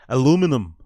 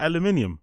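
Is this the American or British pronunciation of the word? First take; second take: American; British. First: It is said the American way, without the extra syllable. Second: It is said the British way, with the extra syllable. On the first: The speaker calls it wrong. "when Americans pronounce aluminium" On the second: The speaker calls it right. "Isn't it aluminium?"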